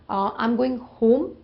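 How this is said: Home has a long 'oh' vowel. The speaker's own way of saying it. "I will say, I'm going home"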